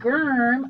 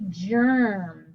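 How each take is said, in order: First: It starts with a hard G sound. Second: It starts with a soft J sound. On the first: The speaker calls it wrong. "I don't say germ" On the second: The speaker calls it right. "I say germ"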